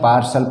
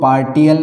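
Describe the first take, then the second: First: The middle consonant is a sh sound. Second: The middle consonant is a t sound. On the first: The speaker calls it right. "टी का उच्चारण क्या होगा? स होगा।" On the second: The speaker calls it wrong. "पार्टियल नहीं पढ़ते"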